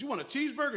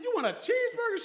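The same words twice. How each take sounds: First: Playful question. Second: Much higher, louder playful question; high, loud, excited "You want a cheeseburger?"; hyped-up question. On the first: Grandfather playfully asks granddaughter. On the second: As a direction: pump the kid up like a hype man. Grandfather builds the excitement higher. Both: Retold or imitated.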